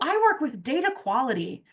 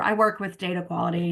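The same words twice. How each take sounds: First: The tone is upbeat and positive. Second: The tone is flat and indifferent. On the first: The speaker values the work. The speaker calls it right. "I've said it with a positive tone of voice" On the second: The speaker does not like the job. The speaker calls it wrong. "it's whatever"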